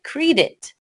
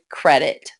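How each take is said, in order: First: The first vowel sound is long. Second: The first vowel sound is short. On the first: The speaker calls it wrong. "Rule eight would make it sound like" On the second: The speaker calls it right. "So we say"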